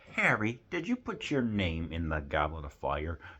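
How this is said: It is asked quietly and calmly.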